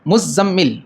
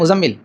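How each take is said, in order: First: The middle consonants are held long, doubled. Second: The middle consonants are said short, not doubled. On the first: The speaker calls it right. "दोनों पे तशदीद है" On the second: The speaker calls it wrong. "हम नाम गलत लेते हैं"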